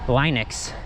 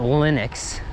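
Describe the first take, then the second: First: The first vowel is long, as in 'line'. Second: The first vowel is short, as in 'lin'. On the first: It follows the pronunciation of the creator's name. The speaker calls it right. "the proper way to pronounce it in English would be" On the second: It is the common pronunciation heard from most people. The speaker calls it wrong. "not ... Not like linen"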